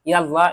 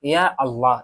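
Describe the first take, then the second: First: The two words are run together. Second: The two words are kept separate. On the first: The speaker calls it wrong. "এভাবে সেভাবে বলবেন না" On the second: The speaker calls it right. "এভাবে বলবেন"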